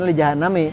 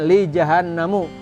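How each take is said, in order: First: The last word ends with an i vowel. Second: The last word ends with an u vowel. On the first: It follows the grammar after a preposition. "harusnya li jahannami, haraf jar" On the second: It fits the rhyme of the verse. "karena nazoman maka bacanya li jahannamu"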